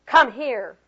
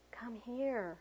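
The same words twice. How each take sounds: First: Loud, curt command; sharp order. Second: Slow, hushed, gentle invitation; soft whisper. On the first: Reading a poem about tone to teachers, sharp order. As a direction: order a child over sharply. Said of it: "I sharply ordered". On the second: Reading a poem about tone to teachers, soft whisper. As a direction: coax a child over very softly. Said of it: "I softly whispered". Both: A narrator's reading.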